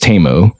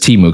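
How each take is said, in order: First: The first syllable sounds like 'tay'. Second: The first syllable sounds like 'tee'. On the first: This is the official pronunciation. "the official pronunciation is Tay, like Tay, like [name]" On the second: This is how most people say it. "everyone just says Timu because it's, it's spelt that way"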